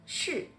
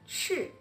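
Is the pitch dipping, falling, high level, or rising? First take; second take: falling; falling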